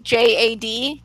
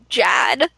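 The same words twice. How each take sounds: First: It is spelled out as three separate letters. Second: It is said as a single one-syllable word. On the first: "I thought that everyone pronounced it J-A-D" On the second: "apparently the coaches call him Jad"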